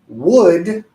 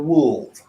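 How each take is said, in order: First: The L sound is left out. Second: The L sound is pronounced. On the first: The speaker calls it right. "The proper pronunciation" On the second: The speaker calls it wrong. "the pronunciation is not"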